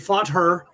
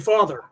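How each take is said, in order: First: The t and h are sounded separately. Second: The t and h blend into one th sound. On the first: The speaker calls it wrong. "you wouldn't say fought her" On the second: The speaker calls it right. "You would say father"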